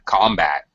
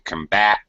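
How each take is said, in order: First: The stress is on the first syllable. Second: The stress is on the second syllable. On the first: It is a noun meaning fighting. "Usually, when it's a noun, the first syllable gets stress" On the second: It is a verb meaning to fight against. "When it's a verb, the second syllable gets stress"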